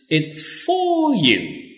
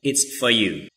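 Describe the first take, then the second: First: The word 'for' is full and stressed. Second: The word 'for' is reduced and unstressed. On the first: The speaker thinks it is really important for the listener. "Or you can use the strong form. You can emphasize" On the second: The speaker thinks it is normal and not important. "here we just use the weak form because we think it's normal"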